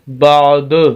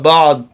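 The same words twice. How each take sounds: First: The final d bounces with a slight echo. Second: The final d stops flat with no echo. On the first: "लेकिन कलकला करेंगे बाद" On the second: "अगर कलकला ना करें तो लफ्ज होगा बाद"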